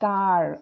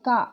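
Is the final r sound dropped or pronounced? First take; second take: pronounced; dropped. First: An American accent, with the r sounded. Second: A British accent, with no r sound.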